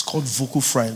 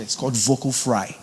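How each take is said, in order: First: Vocal fry demo. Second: Said in the usual way. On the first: Shown as a demonstration. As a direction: drag It's called vocal fry out in creaky fry.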